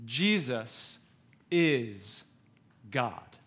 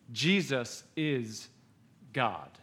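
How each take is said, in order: First: Slow, lower and softer, a pause between each word; solemn emphasis. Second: Slower still, much lower, soft, pause before God; solemn repeat. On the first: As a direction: let each word land quietly and heavily. Camp sermon states first truth. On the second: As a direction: let it sink in, quiet and heavy. Repeats the truth for weight. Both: Acted.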